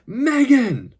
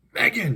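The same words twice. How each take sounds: First: Long, much higher, loud cry of her name; louder anguished cry. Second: Higher, sharply falling cry of her name; anguished cry. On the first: Captive husband to his motionless wife, desperate cry. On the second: Captive husband to his unresponsive wife, anguished cry. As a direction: call out in anguish. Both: A narrator's reading. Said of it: "he cried out in anguish".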